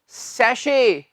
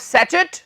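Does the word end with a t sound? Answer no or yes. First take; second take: no; yes. First: It has a sh sound and no final t. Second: It has a ch sound and ends in t. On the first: The speaker calls it right. "ये है सैशे।" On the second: The speaker calls it wrong. "नहीं मेरे भाई"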